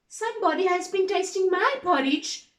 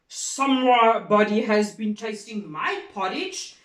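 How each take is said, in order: First: It is said in a medium bear voice. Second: It is said in a deep bear voice.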